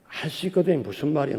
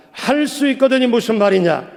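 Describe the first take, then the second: First: 할 수 있거든 무슨 말이야 said low and soft, gently puzzled; soft Jesus version. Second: 할 수 있거든이 무슨 말이냐 proclaimed higher and firmly, a mild loud rebuke; loud Jesus rebuke. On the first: Jesus gently questioning the doubting father, low and soft. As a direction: murmur the question low, no force at all. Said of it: "요 정도 목소리 톤으로 예수님이 했는데". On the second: Jesus rebuking the father's doubt, proclaimed boldly. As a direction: declare it boldly from the pulpit. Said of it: "예수님이 큰 목소리로 말씀을 하시니까". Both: Retold or imitated.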